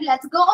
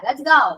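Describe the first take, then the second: First: The vowel in go is a plain o. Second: The vowel in go glides from e to u. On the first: The speaker calls it wrong. "Let's go എന്നല്ല പറയാ" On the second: The speaker calls it right. "Eow, eow എന്നാണ്"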